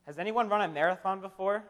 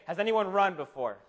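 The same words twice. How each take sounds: First: Said in the usual way. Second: "run" picked out as the key word, tune falling after it; stress on run. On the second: Real, not acted. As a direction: lean on "run" and let the question fall. Re-asks with a lower bar.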